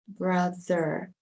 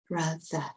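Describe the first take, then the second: First: It is said in an American accent, final R pronounced. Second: It is said in a British accent, final R dropped.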